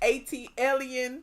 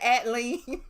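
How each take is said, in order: First: The opening letters A, T, L are spelled out. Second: The opening letters blend into one word. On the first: The speaker calls it right. "but the pronunciation is ATLien, which stands for the the city A T L" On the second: The speaker calls it wrong. "you would pronounce it [name]"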